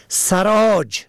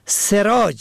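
First: سراج said as saraj, a first; fatha on first letter. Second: سراج said as seraj, e first; kasra on first letter. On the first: Teacher contrasting homographs, saraj with fatha. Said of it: "به فتح اول". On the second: Teacher contrasting homographs, seraj with kasra. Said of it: "به کسر اول". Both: Shown as a demonstration.

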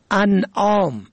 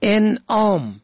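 First: انعام with opening "a", "an'om"; first vowel fatha. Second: انعام with opening "e", "en'om"; first vowel kasra. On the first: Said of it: "به فتح اول". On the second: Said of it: "به کسر اول". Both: Shown as a demonstration.

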